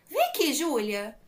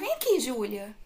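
First: It is said in a firmer, stricter tone. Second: It is said in a gentle, ordinary tone.

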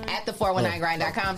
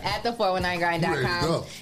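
First: The address is said quickly. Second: The address is said slowly. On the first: The speaker calls it wrong. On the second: The speaker calls it right.

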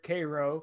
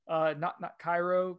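First: It is said the local Georgia town way. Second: It is said like the Egyptian city's name. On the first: This names the town in Georgia. The speaker calls it right. "It's pronounced there Cairo" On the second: This names the city in Egypt. The speaker calls it wrong.

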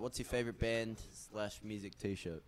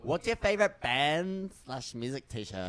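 First: It is asked flatly, with no passion. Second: It is asked lively, with enthusiasm.

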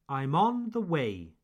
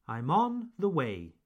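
The two takes are said the same way.

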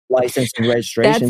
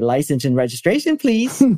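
First: The voice falls at the end. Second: The voice rises at the end. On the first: The speaker sounds like they have authority. The speaker calls it right. "It goes down at the end when you have an authority" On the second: The speaker sounds like they are pleading for something. The speaker calls it wrong. "He wouldn't say"

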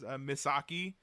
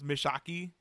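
First: The s sound is a clear, plain s. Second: The s sound is lisped, close to sh. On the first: "when she says Misaki" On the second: "she says Mishaki. ... She has that lisp"

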